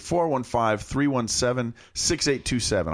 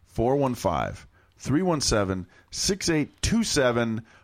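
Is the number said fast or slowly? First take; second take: fast; slowly. First: The number is said at a faster pace. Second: The number is said at a slower pace.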